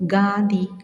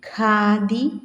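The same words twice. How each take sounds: First: The first consonant is a plain k. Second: The first consonant is an aspirated kh. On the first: The speaker calls it wrong. "തെറ്റായി ഉച്ചരിക്കുന്നതൊന്ന്" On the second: The speaker calls it right. "ശരിയായി ഉച്ചരിക്കുന്നതിന്"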